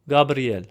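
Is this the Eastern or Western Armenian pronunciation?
Eastern. It is said with an Eastern Armenian pronunciation. "In Eastern Armenian"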